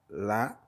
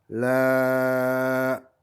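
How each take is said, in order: First: The vowel is held for one count. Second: The vowel is held for four counts.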